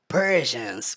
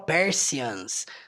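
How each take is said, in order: First: The middle consonant is a 'zh' sound. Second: The middle consonant has no 'zh' sound. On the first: The speaker calls it right. "tem um som de J ali no meio" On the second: The speaker calls it wrong. "Você não fala Persians"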